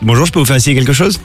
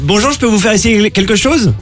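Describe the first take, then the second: First: It is said in an ordinary, everyday speaking voice. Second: It is said in a bright, put-on saleswoman voice. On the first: "ensuite avec leur voix normale" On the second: "avec leur voix de commerçante"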